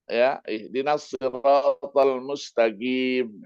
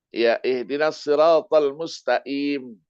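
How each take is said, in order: First: The q sound is pronounced as a hard g. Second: The q sound is pronounced as a glottal stop. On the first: This is how people from Yemen read it. "ketika membaca huruf Qaf misalnya tidak dibaca Qaf, dibaca Ga" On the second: This is how people from Egypt read it. "orang Mesir menyebutnya itu Qaf itu dengan A"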